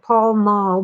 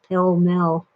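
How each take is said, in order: First: The vowels sound like the 'a' in 'pal'. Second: The vowels sound like the 'e' in 'pell'. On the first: This is how the name is written. "It's spelled Pall Mall" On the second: This is how the speaker's mother said it. "mom always pronounced it Pell Mell"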